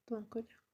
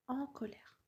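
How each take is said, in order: First: "En colère" begun with a linked T sound; liaison with T. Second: Said in the usual way. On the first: Shown as a demonstration. Teacher showing the liaison, "En colère" said with a leading T. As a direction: link a T onto the front of "En colère". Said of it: "une liaison en fait avec le T". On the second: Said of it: "on a une liaison en fait".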